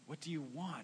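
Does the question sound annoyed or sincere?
sincere. It sounds warm and sincere.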